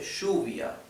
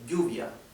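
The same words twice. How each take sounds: First: The double L has the Argentine-Uruguayan sound. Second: The double L sounds like a y. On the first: "En Argentina y en Uruguay se dice lluvia, que tampoco es" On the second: "la mayoría pronuncia la doble L como y"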